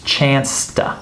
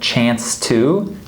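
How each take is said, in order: First: The word 'to' is reduced to a t. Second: The word 'to' is said in full. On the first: "the two becomes reduced to T" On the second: "instead of saying"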